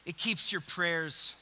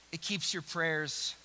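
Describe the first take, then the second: No difference in how they are said.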